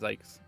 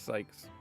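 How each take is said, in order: First: The name begins with a buzzing z sound. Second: The name begins with a hissing s sound. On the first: The speaker calls it wrong. "I pronounce it Zykes" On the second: The speaker calls it right. "Or actually, it's Sykes. ... Z in German is an S sound"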